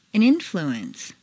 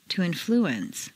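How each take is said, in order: First: INfluence, stressed on the first syllable. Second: InFLUence, stressed on the second syllable. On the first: Teacher models noun "influence", first-syllable stress. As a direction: hit IN in "influence". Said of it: "first syllable for nouns". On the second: Teacher models verb "influence", second-syllable stress. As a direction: hit FLU in "influence". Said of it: "to the second syllable". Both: Shown as a demonstration.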